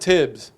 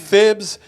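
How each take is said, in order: First: The name begins with a 't' sound. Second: The name begins with a 'th' sound. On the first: The speaker calls it right. "Call him Tibbs" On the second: The speaker calls it wrong. "I'm not gonna do the th. It makes me sound like it just sounds stupid"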